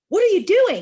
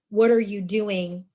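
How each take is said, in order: First: It sounds like an angry, yelled accusation. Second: It sounds like a genuine, curious question.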